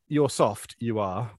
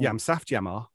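First: It is said in a standard English accent. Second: It is said in a Black Country accent.

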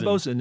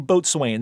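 First: It is said reduced, as bo-sun. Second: It is said in full, as boat-swain. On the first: The speaker knows seafaring usage. The speaker calls it right. "bosun is fine" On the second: The speaker knows the word only from reading. The speaker calls it wrong. "you don't want to say boatswain. That really sets you apart as as wrong"

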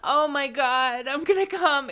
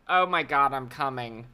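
First: It sounds joyful and excited. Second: It sounds ashamed and uneasy.

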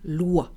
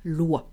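First: The vowel sounds like 'wa' as in water. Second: The vowel sounds like 'wa' as in water.

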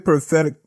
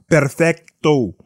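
First: The R is said plainly, without a trill. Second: The R is rolled with a trill.

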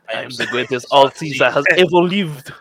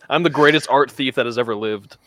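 First: It is said in a put-on French accent. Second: It is said in the speaker's ordinary accent.

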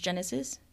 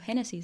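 First: The name is pronounced with English sounds. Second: The name is pronounced with Spanish sounds. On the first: "in English it is pronounced as Genesis" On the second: "I pronounce it in Spanish"

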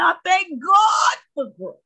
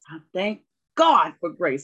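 First: It is said in a put-on Baptist church voice. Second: It is said in the speaker's normal voice.

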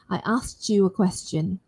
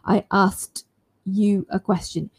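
First: The words 'asked you' blend together into a 'ch' sound. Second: The words 'asked you' are said separately, with no 'ch' sound. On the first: "But if I want to make it all connected, assimilated, it sounds like this" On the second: "instead of me being very careful"

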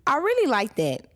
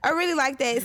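First: It is said in a put-on British accent. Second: It is said in the speaker's natural accent. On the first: "I just had to feel it in this voice" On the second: "I had to go back to natural voice on you guys"

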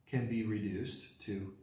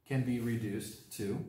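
Both takes have the same delivery.

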